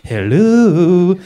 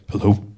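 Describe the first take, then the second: First: It is said in a put-on 1940s madam voice. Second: It is said in his own nervous voice.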